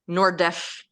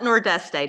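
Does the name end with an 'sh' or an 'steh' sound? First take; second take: sh; steh. First: It ends in an sh sound. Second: It ends in a full steh sound. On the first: This is how locals say it. "if you live in the Azores, you say something like Nordesh" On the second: This is how an American says it. "we'll call it Nordeste to be American"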